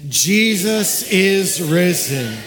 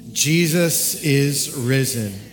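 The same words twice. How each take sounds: First: It is said loudly, like thunder. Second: It is said at normal volume.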